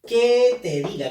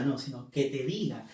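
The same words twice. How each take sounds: First: "que" pushed up and louder as if asking; a questioning "que te diga"; stressed que. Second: Said in the usual way. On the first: Shown as a demonstration. ("que" enfático, como pregunta, más fuerte) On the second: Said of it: "Acá no está preguntando que te diga".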